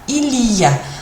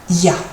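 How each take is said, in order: First: The 'il' sound is fully pronounced. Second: The 'il' sound is dropped entirely.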